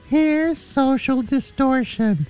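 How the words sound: It is said in a put-on, weird voice.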